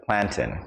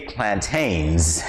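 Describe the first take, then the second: First: "plantain" said PLAN-tin; short, unstressed ending on "plantain"; Caribbean pronunciation. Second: "plantains" said plan-TAYNZ; long AY in the last syllable of "plantains"; American pronunciation. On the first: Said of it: "instead of plantain". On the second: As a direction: stretch "plantains" to end in -taynz. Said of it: "You say plantains instead of plantain". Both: Shown as a demonstration.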